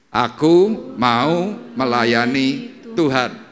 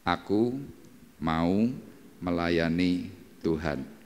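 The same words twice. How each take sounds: First: It is said louder. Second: It is said at normal volume.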